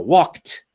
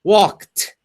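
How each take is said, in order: First: The final t is said strongly and clearly. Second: The same.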